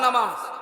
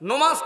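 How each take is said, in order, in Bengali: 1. প্রথম স্বরধ্বনিটি 'a'-এর মতো শোনায়। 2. প্রথম স্বরধ্বনিটি 'o'-এর মতো শোনায়। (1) "আরো জোরে" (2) "না"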